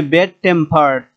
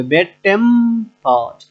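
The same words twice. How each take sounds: First: Said in the usual way. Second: bad tempered slowly, টেম held firm; drawn-out bad tempered, peak on টেম; stress on টেম. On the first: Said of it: "আমাদের দ্বিতীয়টায় এসে জোর দিতে হবে". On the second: Shown as a demonstration. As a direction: lean hard and long on টেম in bad tempered. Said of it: "টেম এটা একটু শক্ত হয়ে উচ্চারিত হবে".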